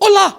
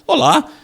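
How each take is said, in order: First: It is said in a warm, friendly way. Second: It is said in a polite, serious way.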